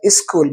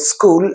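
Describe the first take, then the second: First: "school" begun with a short i, iskool; two-syllable "school", is-kool; Hindi-speaker e prefix. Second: Said in the usual way. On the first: Shown as a demonstration. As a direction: put an i before the s of "school". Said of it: "e, in front of it". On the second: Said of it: "Hindi speaking people use the word school".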